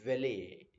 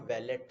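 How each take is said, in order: First: Valet as VAL-ay, no t; silent t. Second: Valet as VAL-et with final t; t sounded. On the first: Teacher naming the attendants, valet with silent t, VAL-ay. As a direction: end valet on an open "ay". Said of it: "टी silent रहता है". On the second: Teacher showing what they are not, valet ending in a t. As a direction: close valet on a clear t. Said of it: "they are not valet". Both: Shown as a demonstration.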